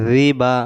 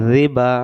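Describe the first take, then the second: No difference in how they are said.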